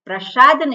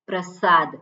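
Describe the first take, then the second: First: The s sound is a palatal sh. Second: The s sound is a dental s. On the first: The speaker calls it wrong. "ખબર ન હોય એટલે પ્રસાદ બોલતા હોય પ્રસાદ નહીં" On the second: The speaker calls it right. "ત્યાં સરસ્વતીનો સ છે"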